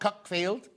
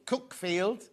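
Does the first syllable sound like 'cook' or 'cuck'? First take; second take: cuck; cook. First: The first syllable sounds like 'cuck'. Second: The first syllable sounds like 'cook'. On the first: The speaker calls it wrong. "not Cuckfield" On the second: The speaker calls it right. "Cookfield, you say"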